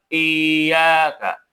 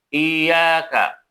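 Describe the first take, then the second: The two takes are said the same way.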